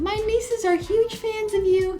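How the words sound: It is said in an exaggerated put-on voice.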